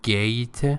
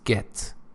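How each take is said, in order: First: The vowel sounds like the one in 'late'. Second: The vowel sounds like the one in 'let'. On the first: The speaker calls it wrong. "It's not gate" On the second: The speaker calls it right. "it's get"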